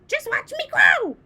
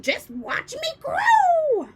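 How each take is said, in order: First: High, loud boastful call; gleeful crone shout. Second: Slow, high, breathy witch whisper; stretched crone whisper. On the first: Grandma boasting to George, loud shout. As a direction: shout it out proudly. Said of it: "she called down". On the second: Grandma boasting to George, slow eerie whisper. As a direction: draw it out eerily. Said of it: "she shouted". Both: A narrator's reading.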